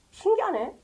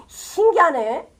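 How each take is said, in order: First: 신기하네 said higher and softer, falling at the end; a quiet, ironic aside; soft mock wonder. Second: 신기하네 drawn out slowly with a rising end; amazed, slow. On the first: Preacher mocking the Pharisees' blindness with soft ironic wonder. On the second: Preacher marveling aloud at the Pharisees' blindness, slow and rising. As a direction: marvel at it, stretching each syllable. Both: Shown as a demonstration.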